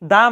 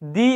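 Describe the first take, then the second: First: The word 'the' ends in a short schwa. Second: The word 'the' ends in an ee sound. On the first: The next word starts with a consonant. "এখানে দা উচ্চারণ হয়েছে" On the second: The next word starts with a vowel. "এখানে দি ব্যবহৃত হয়েছে কেননা এটি ভাউয়েল"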